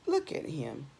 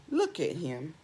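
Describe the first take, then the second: No difference in how they are said.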